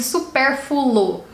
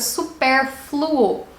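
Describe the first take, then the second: First: The word is said in a simplified, easier form. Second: The word is said in its harder full form. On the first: The speaker calls it wrong. "As pessoas dizem supérfluo" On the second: The speaker calls it right. "É um pouco mais difícil de pronunciar"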